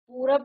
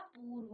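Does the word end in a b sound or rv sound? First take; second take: b sound; rv sound. First: The word ends with a b sound. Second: The word ends with an rv sound. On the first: The speaker calls it wrong. "पूरब नहीं होता" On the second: The speaker calls it right. "पूर्व होता है"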